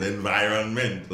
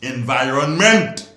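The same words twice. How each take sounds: First: Said in the usual way. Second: Stretched, loud and slow; drawn-out emphasis. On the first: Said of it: "Long it out". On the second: Shown as a demonstration. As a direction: lean on every syllable of "Environment.". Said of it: "Speak the word".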